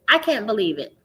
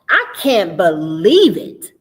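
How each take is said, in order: First: It is read flatly, without feeling. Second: It is read expressively, with feeling. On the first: The words are only decoded. The speaker calls it wrong. "Eh, okay. You read the words" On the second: The reader is drawn into the story. The speaker calls it right. "That's a totally different way of reading that text"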